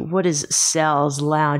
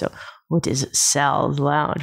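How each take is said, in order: First: It is said in an ordinary speaking voice. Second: It is said in a put-on seductive voice.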